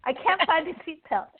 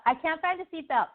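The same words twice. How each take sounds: First: Higher voice with an acted giggle; laughing. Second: Higher, frustrated grumble; unhappy complaining. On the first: Cheerful passenger can't find the seatbelt, acted laughing. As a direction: giggle helplessly at your own fumbling. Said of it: "It comes in and they're laughing". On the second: Acted. Frustrated passenger hunting for the seatbelt, acted complaining. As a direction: complain as if fed up, mildly acted. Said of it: "unhappiness from joy, far from peace".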